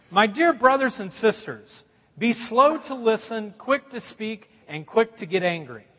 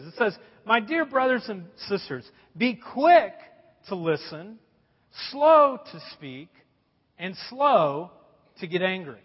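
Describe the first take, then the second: First: Preacher jokingly misquotes scripture; mock misreading. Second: Preacher reads the verse properly; correct reading. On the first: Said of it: "That's the way I read it sometimes". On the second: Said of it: "what the verse really says". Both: Shown as a demonstration.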